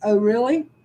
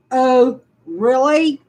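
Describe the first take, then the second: First: Said in the usual way. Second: Sarcastic. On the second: Real, not acted. Answering the letter's accusation with slow sarcasm. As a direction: stretch out really, biting sarcasm.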